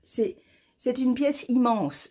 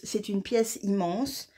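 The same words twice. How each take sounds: First: Amazed. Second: Said in the usual way. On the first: Real, not acted. Knitter showing viewers her big shawl, drawn out in wonder. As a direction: marvel at how big it is.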